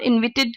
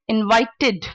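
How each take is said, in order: First: The final 'id' syllable is blurred and weak. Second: The final 'id' syllable is clearly pronounced. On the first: The speaker calls it wrong. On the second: The speaker calls it right.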